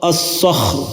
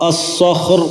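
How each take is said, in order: No difference in how they are said.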